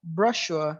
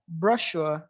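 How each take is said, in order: First: A British accent with a weak, unclear R. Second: A British accent with a weak, unclear R.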